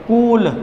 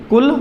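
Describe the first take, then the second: First: कूल with a long, stretched oo; drawn-out vowel. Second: कुल with a short, quick u; short vowel. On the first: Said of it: "कूल खींचकर बोला". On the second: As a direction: keep the u in कुल brief and unstretched. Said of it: "कुल धीरे से बोला". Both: Shown as a demonstration.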